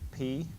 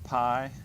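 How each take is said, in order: First: The vowel sounds like 'ee'. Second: The vowel sounds like 'eye'. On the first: This is how it is said in Greek. "in Greek we pronounce it P" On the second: This is the everyday English way of saying it. "It's pronounced pi outside of Greek class"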